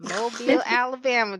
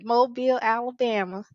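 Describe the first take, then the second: First: High, louder drawled Mobile, Alabama; sing-song Southern twang. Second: Mobile, Alabama high and bright with a Southern lilt. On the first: Host introducing her Southern guest, in a drawled twang. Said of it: "I don't know why I said it like that". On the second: Host restating her guest's hometown in a lighter Southern lilt. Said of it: "but Mobile, Alabama". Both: Real, not acted.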